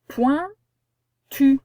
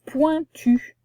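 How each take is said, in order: First: "Pointu" split into poin, long pause, tu; higher, louder "Pointu", broken between poin and tu; syllable by syllable. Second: Said in the usual way. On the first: Shown as a demonstration. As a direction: dictate "Pointu" slowly in two separate syllables. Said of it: "On a la syllabe point au début". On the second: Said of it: "comment ça va s'écrire du coup?".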